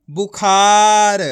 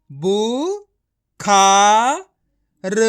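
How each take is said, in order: First: बुखार joined, with a long loud खा; blended word. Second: बु, खा, र with long gaps between; each syllable of बु, खा, र said alone. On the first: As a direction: blend it into one drawn-out बुखार. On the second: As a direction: sound out बु... खा... र. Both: Shown as a demonstration. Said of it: "direct मात्रा का उच्चारण करके".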